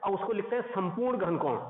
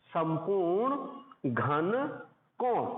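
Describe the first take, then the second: First: Said in the usual way. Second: Very slow, word by word for notes; slow dictation. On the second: Shown as a demonstration. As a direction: spell out संपूर्ण घन कोण slowly.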